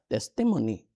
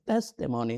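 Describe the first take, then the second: First: "testimony" stressed on the second syllable; tes-TI-mony, mis-stressed; wrong stress. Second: "Testimony" stressed on the first syllable; TES-timony, front-stressed; correct stress. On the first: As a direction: move the weight to TI in "testimony". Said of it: "not testimony". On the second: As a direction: put the weight on TES in "Testimony". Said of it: "That is how you pronounce it". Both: Shown as a demonstration.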